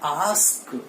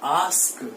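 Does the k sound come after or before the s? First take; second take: after; after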